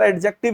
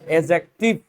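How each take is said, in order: First: The d sound is clearly pronounced. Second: The d sound is left silent. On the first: The speaker calls it wrong. "मैं भी इसको कई बार एडजेक्टिव ही पढ़ता था" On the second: The speaker calls it right. "ये जो डी शब्द है ना, ये साइलेंट है"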